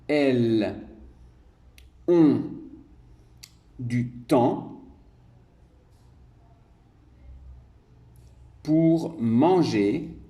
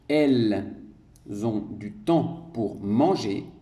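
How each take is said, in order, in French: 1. La phrase est prononcée lentement. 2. La phrase est prononcée à vitesse normale. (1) "je vais le dire plus lentement" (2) "je lis ma dictée normalement"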